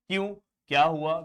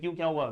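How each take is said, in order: First: There is a pause after the first word. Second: It runs on fast with no pause. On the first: The speaker calls it right. "जब हम बोलते हैं क्यों, तो हम रुकते हैं" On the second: The speaker calls it wrong. "ऐसे हम फास्ट नहीं बोलते हैं"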